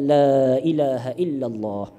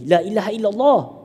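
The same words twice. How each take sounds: First: It is said softly and slowly. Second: It is said in a forceful, pushing way. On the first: The dying person is allowed to follow at their own pace. The speaker calls it right. "Bagi dia ikut pelan-pelan" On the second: The dying person is being pressured to repeat it. The speaker calls it wrong. "jangan kita paksa sebut la ilaha illallah"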